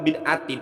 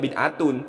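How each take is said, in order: First: The word ends with the sound -in. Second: The word ends with the sound -un. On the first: The speaker calls it right. "harus dibaca jer gitu dan tanda jernya kasroh" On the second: The speaker calls it wrong. "itu gak boleh dibaca bid'atun"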